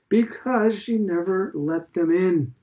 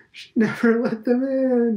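First: Slow, weighty punchline; solemn. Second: High, loud cry through laughter; laughing. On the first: Old headmaster answering Stephen's question, slow and solemn. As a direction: deliver it gravely and slowly. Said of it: "Mister Deasy said solemnly". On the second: Old man repeating his joke to Stephen, laughing loudly. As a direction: crow it while laughing. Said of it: "he cried again through his laughter". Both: A narrator's reading.

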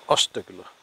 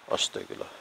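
First: Said in the usual way. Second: Breathless whispered prayer. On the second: Real, not acted. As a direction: whisper it in fear in the dark. Scared muttered prayer at night.

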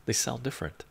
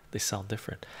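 First: Said in the usual way. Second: Unvoiced whisper; hushed repeat. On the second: Real, not acted. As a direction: breathe it out as an aside.

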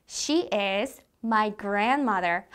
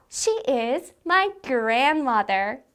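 First: Said in the usual way. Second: Slow, cutesy affectionate delivery; more lovingly. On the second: Shown as a demonstration. Teacher models loving words about grandma, more lovingly. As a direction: say it adoringly, lingering on "my grandmother". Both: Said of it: "좀 더 사랑스럽게".

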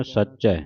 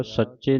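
First: ਸੱਚੈ with an open "ai" ending; correct pronunciation. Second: ਸੱਚੇ with a closed "e" ending; mispronunciation demo. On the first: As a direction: say ਸੱਚੈ as "sach-chai", wide final vowel. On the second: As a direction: say ਸੱਚੇ as "sach-chay", narrow final vowel. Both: Shown as a demonstration. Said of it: "ਸੱਚੇ ਨਹੀਂ ਕਹਿਣਾ".

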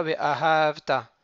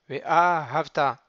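First: Ve'ahavta stressed on the middle syllable ha; wrong stress on ha. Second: Ve'ahavta with the stress on the last syllable, ta; stress on final syllable. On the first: Teacher shows the wrong Ve'ahavta, stressed on ha. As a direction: put the weight on ha in Ve'ahavta, as the mistake. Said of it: "Et pas Ve'ahavta". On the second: Teacher models the correct Ve'ahavta, stressed at the end. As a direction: land the weight on ta in Ve'ahavta. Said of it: "c'est un mot qui est millera". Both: Shown as a demonstration.

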